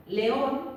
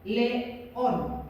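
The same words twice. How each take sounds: First: León said as one unbroken word; kept whole. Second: León split as le- / ón; wrong split shown. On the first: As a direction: keep León together. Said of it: "león no podéis hacer león". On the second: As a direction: say león broken into le and ón. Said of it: "No podéis hacer". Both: Shown as a demonstration.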